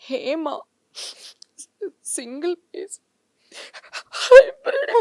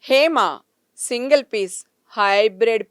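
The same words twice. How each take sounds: First: It is said in a crying, tearful voice. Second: It is said in a plain, neutral tone. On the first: "ఏడుపుతో" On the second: "original జెప్పేసి"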